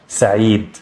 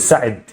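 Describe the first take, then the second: First: The middle vowel is held long. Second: The middle vowel is short. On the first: "the ya is going to be a, vowel, a long vowel sound"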